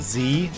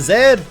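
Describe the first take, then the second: First: The letter is said in an American way. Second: The letter is said in a non-American way.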